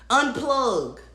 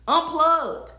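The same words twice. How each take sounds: First: Said in the usual way. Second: "unplug." said again higher and with more force; emphatic repeat. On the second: Real, not acted. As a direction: lean harder into "unplug.".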